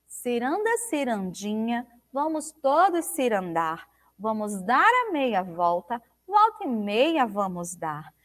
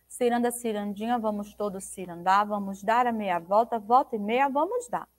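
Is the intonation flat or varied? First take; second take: varied; flat. First: The intonation varies and the rhyming words are marked. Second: The intonation stays flat and the rhymes are not marked. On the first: The rhymes are made noticeable. The speaker calls it right. "Agora, olha só" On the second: The rhymes go unnoticed. The speaker calls it wrong. "Você não pode ler assim"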